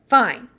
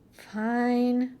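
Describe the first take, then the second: First: It is said in a louder voice. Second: It is said in a low, quiet growl.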